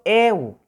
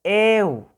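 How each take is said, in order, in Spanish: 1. La vocal e se mantiene larga. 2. La vocal e se mantiene larga.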